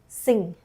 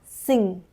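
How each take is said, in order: No difference in how they are said.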